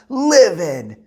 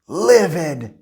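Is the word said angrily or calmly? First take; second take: angrily; calmly. First: It is said in an angry, forceful way. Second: It is said in a calm, neutral way.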